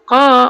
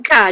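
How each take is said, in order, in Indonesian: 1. Konsonan itu diucapkan tebal dan berat. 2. Konsonan itu diucapkan tipis dan ringan. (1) "Fasuh qa urut tebal" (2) "jangan ka, jangan nipis"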